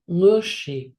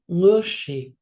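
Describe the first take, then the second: First: The word is said with a low tone. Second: The same.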